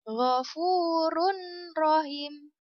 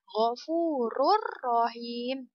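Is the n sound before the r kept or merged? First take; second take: kept; merged. First: The n is pronounced clearly before the r. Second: The n merges into a doubled r, unnasalized. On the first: The speaker calls it wrong. "Itu cara baca yang salah ya" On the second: The speaker calls it right. "Tidak boleh berdengung, tapi seperti ini ya"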